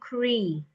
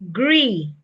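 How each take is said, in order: First: The syllable begins with a voiceless K sound. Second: The syllable begins with a voiced G sound. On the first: The speaker calls it wrong. "You're saying cree" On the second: The speaker calls it right. "I want you to pronounce the G"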